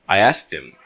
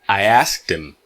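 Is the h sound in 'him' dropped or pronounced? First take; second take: dropped; dropped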